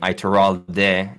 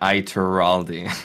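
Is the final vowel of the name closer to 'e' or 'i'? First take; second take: e; i. First: The name ends with a stressed 'e' vowel. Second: The name ends with an 'i'-like vowel. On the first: It avoids sounding Italian. "hice más énfasis en la E del final" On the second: It sounds Italian. "como siempre lo ha dicho mi madre"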